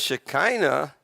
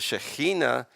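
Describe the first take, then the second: First: The word has an English-style pronunciation. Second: The word has a Hebrew-style pronunciation.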